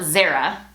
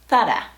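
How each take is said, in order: First: Zara with English z and r, ZAR-uh; English-style Zara; anglicized Zara. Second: Zara with th sound and tapped r, THAH-ra; Spanish Zara, th then tap; Castilian Zara. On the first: Teacher showing the wrong English way to say Zara. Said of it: "definitely not Zara". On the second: Teacher modelling Zara as said in Spain. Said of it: "but Zara". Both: Shown as a demonstration.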